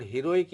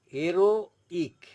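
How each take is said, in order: First: Said in the usual way. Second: "heroic" split as "ero... ik", loud, no H; French "heroic", silent H, broken in two; pause before I. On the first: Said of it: "is called heroic in English". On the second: Shown as a demonstration. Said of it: "you have to pause for a moment".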